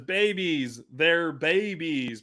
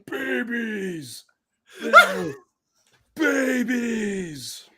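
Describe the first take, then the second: First: It is said in his normal voice. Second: It is said in a Shredder impression voice.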